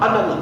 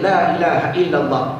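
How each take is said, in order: First: It is said very fast and blurred together. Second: It is said at a moderate, clear pace. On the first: Only the last word can be made out. The speaker calls it wrong. "bila terlampau laju bunyi Allah" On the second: Each word of the phrase comes through. The speaker calls it right. "dia berzikir la ilaha illallah"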